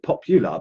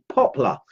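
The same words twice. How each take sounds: First: Popular said with three syllables, pop-u-lar; mispronounced word. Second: Poplar said with two syllables, pop-ler; corrected word. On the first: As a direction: say popular as pop-you-lar, the wrong name. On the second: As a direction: say poplar short as POP-luh, the right name. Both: Shown as a demonstration. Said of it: "I called it popular, but it's poplar".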